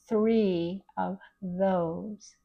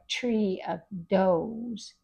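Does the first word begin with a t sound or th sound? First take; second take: th sound; t sound. First: The first word begins with a th sound. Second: The first word begins with a plain t sound. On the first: The speaker calls it right. "It's three of those" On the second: The speaker calls it wrong. "You wouldn't say thank you or tree of those"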